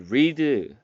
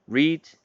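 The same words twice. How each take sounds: First: The vowel is long, like 'reed'. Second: The vowel is short, like 'red'. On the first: It is the present-tense form. The speaker calls it wrong. "이 read 아니고요" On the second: It is the past participle form. The speaker calls it right. "read라고 하셔야 됩니다"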